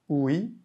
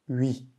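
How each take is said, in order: First: The vowel begins with an oo sound. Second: The vowel begins with a French u sound. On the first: The speaker calls it wrong. "non pas oui" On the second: The speaker calls it right. "mais oui. Un peu le son du U français et le son I"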